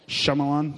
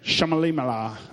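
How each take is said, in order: First: The name ends in a short -lan. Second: The name ends in an added -limala. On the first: The speaker calls it right. "did I say it right? Okay" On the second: The speaker calls it wrong. "they said it weird on The Office"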